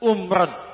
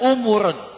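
First: It starts with u and has two syllables. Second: It starts with u and has three syllables. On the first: "Yang pertama dibaca umran" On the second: "Yang kedua dibaca umuran"

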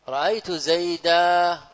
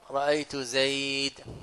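First: The final word ends in a long vowel. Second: The final word ends in a bare consonant. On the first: This is the pausal form used by most Arabs. "جمهور العرب في التنوين نصب يوقف عليه بالالف" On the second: This is the pausal form of the Rabi'a dialect. "وربيعة تقف عليه"

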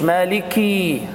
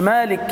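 First: The vowel after the k is drawn out long. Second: The k has no vowel after it. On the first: "ما تقولش مالكي عشان ما تولدش ياء" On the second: "مالك انت كده سكنت الكاف"

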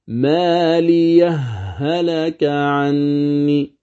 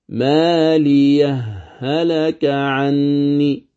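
No difference in how they are said.

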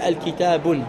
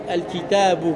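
First: The word ends in a u vowel plus n. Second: The word ends in a plain u vowel. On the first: The speaker calls it wrong. "Tu ne diras plus « al-kitabun »" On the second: The speaker calls it right. "tu dis « Hada al-kitabu »"

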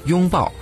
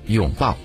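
First: Said with the Mainland tone on the first syllable. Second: Said with the Taiwanese tone on the first syllable. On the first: "在我们内地读作拥，叫做拥抱" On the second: "可在台湾呢读作拥抱"

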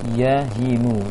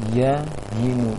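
Both takes have the same delivery.

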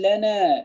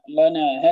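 First: The lam sounds thin and light. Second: The lam sounds thick and heavy. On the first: The speaker calls it right. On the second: The speaker calls it wrong.

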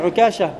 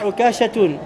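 First: The name ends on a plain vowel. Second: The name ends with an added -toun ending. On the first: The speaker calls it right. "Tu dis Ukasha" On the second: The speaker calls it wrong. "Tu ne dis pas Ukashatoun"

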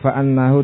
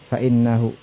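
First: The hamza is followed by the vowel a. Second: The hamza is followed by the vowel i. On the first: "dengan fathah pada hamzah" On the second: "dibaca dengan kasrah pada hamzahnya"

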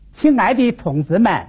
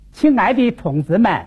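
First: It is spoken in a Wuhan accent with sliding tones. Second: It is spoken in a Wuhan accent with sliding tones.

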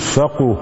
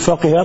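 First: The second vowel is a 'u' sound. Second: The second vowel is not a 'u' sound. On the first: Understanding became part of one's nature. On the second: One understood a particular matter.

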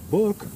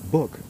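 First: The word is said with its pitch moving. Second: The word is said with a plain pitch. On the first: It names a turd. "When you go book, that means a turd" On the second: It names a book. "If you say book, well, that's a book"

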